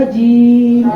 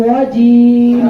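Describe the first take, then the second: The two takes are said the same way.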